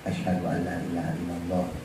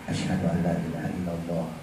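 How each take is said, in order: The two takes are said the same way.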